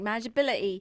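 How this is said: It is said with a British accent.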